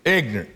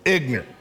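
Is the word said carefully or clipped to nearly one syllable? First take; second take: clipped; clipped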